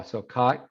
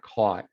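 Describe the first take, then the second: First: "caught" said with an open "ah" and a rising tune; "caught" rhyming with "cot"; merged vowel. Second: "caught" said with a rounded "aw" and falling; "caught" with a back, rounded vowel. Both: Shown as a demonstration. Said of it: "You hear that?".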